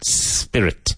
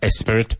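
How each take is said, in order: First: The word starts directly with the s sound. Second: The word starts with an added e vowel. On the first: The speaker calls it right. "Careful of the pronunciation" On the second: The speaker calls it wrong. "Not espirit"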